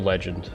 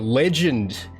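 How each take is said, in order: First: The word is said in the speaker's normal accent. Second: The word is said in an Australian accent. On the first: The speaker calls it wrong. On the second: The speaker calls it right.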